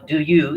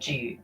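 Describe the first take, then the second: First: Both words are said fully and separately. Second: The words merge into a single 'j' sound. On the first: "do you is pronounced as G" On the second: "do you is pronounced as G"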